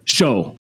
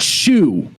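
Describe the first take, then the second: First: The vowel rhymes with 'go'. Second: The vowel rhymes with 'too'. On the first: The speaker calls it right. "It's show" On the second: The speaker calls it wrong. "I can tell you it's not shoe"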